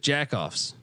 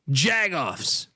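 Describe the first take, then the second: First: The middle consonant is a K sound. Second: The middle consonant is a G sound. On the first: The speaker calls it wrong. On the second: The speaker calls it right.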